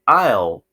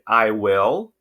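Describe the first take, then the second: First: The words are contracted into one syllable. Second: Both words are said fully and separately. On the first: "que soa mais fluente, mais natural" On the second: "caso você não queira dizer I will"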